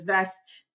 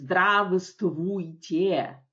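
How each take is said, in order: First: The greeting is shortened, dropping middle sounds. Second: The greeting is said with all its syllables. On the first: This is how people actually say it. The speaker calls it right. "мы говорим здрасте" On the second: Nobody says it this way in everyday speech. The speaker calls it wrong. "Никто по-русски не говорит здравствуйте"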